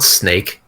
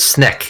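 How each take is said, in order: First: The vowel is a long 'ay' sound. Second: The vowel is a short 'eh' sound. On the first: The speaker calls it wrong. "It's not snake" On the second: The speaker calls it right. "It's sneck"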